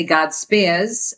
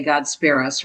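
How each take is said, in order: First: Said in the usual way. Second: SPARE US in two parts, Jersey style; mother's Jersey "God spare us"; Jersey accent. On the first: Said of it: "or as she would say". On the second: Shown as a demonstration. Quoting how she would say it, Jersey accent. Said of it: "as she would say".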